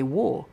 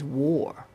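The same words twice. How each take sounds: First: The word is clipped and short. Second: The word is drawn out and long. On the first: "I say war. It's so short" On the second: "She says war"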